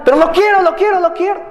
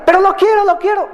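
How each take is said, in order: First: Higher, mock childish whine; whining child. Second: Much higher mock childish whine; whinier child. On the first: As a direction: plead for the toy, a bit hammed-up. Child begging in a shop. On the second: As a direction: push the begging up a notch, hammed-up. Child begging again, escalated.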